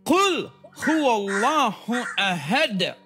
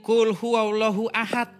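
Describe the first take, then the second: First: The final consonant has an echoing bounce. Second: The final consonant is cut off plainly. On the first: The speaker calls it right. "Bacanya harus" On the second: The speaker calls it wrong. "Oh salah"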